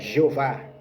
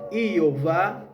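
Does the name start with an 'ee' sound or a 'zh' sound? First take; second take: zh sound; ee sound. First: The name starts with a 'zh' sound. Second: The name starts with an 'ee' sound. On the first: The speaker calls it wrong. "a letra J não existe, então não é Jesus, não é Jeová" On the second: The speaker calls it right. "é I"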